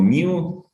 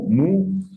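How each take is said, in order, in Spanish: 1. Se dice con un sonido de 'y', 'myoo'. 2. La palabra se dice como 'moo', sencillo. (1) "otro como miu" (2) "algunos lo pronuncian como mu"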